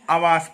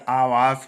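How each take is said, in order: First: आवास with the opening आ cut short; wrong pronunciation. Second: आवास with a long, held opening आ; correct pronunciation. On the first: Teacher showing students the common slip, wrong pronunciation. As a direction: say आवास quickly, first vowel short. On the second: Teacher correcting students' everyday slip, correct pronunciation. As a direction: stretch the first vowel of आवास. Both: Shown as a demonstration. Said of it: "आवास नहीं होता".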